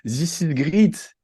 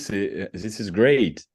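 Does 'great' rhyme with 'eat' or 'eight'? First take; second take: eat; eight. First: Great is said with an ee vowel. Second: Great is said with an ay vowel. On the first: The speaker calls it wrong. "je disais comme This is great... le E A, c'était I comme dans Eagle" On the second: The speaker calls it right. "ce que je veux dire, c'est This is great"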